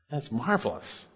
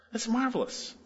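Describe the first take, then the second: First: Quiet awe. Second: High wonder. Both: Real, not acted. Pastor marvels at full pardon.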